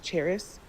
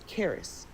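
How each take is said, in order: First: The name begins with a 'ch' sound. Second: The name begins with a 'k' sound. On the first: The speaker calls it wrong. "her name's not pronounced that way" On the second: The speaker calls it right. "Her name is Karis"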